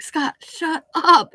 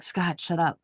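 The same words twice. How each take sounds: First: Higher, louder, slow mock yell of "Scott, shut up"; retold yell. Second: Said in the usual way. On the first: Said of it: "And I'm like". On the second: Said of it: "'cause I'm like".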